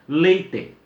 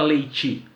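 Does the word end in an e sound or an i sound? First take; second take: e sound; i sound. First: The final vowel is a clear e sound. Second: The final vowel is an i sound. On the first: This is how it is said in the south. "fidelidade, inclusive no que diz respeito às vogais" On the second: This is how it is said in Minas. "com i"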